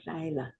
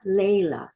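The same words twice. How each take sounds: First: "laila" with the first syllable like "lie"; Hebrew "lie" vowel. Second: "Layla" with the first syllable like "lay"; wrong "lay" vowel. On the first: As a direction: softly model "laila", LIE-la, falling at the end. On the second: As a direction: stress the mistaken "Layla", LAY as in "lay down". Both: Shown as a demonstration. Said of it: "It's not Layla".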